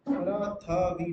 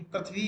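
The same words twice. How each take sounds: First: "प्रथवी" drawn out slowly as pa-ra-tha-vi; colloquial pronunciation. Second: "पृथ्वी" said compactly as prith-vi, consonants joined; standard pronunciation. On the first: Teacher showing the wrong form, slow "प्रथवी" as pa-ra-tha-vi. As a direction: break "प्रथवी" into loose slow syllables, pa-ra-tha-vi. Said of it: "पूरा शब्द ऐसे लिखते हैं". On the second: Teacher correcting the word, standard "पृथ्वी" as prith-vi. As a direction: join pr and thv in "पृथ्वी", two syllables. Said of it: "प्रथवी नहीं पृथ्वी होता है". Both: Shown as a demonstration.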